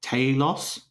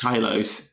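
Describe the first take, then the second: First: "Talos" said the Australian way, TAY-los; Australian pronunciation. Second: "Talos" said TIE-los, first syllable like tie; plain TIE-los. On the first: Guessing how an Australian says it, Australian "Talos". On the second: Testing the name, "Talos" as TIE-los. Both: Shown as a demonstration. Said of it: "Australian would probably say".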